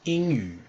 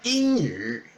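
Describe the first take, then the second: First: It is said in a neutral standard accent. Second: It is said in a northern Chinese accent.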